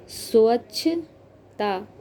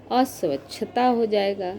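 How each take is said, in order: First: Teacher breaking the word down; slow syllable-by-syllable. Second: Said in the usual way. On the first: Shown as a demonstration. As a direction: say अस्वच्छता slowly, each part apart. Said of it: "teacher sounds out word slowly". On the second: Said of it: "teacher says word whole".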